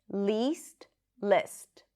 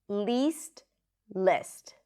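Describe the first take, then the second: Both takes have the same delivery.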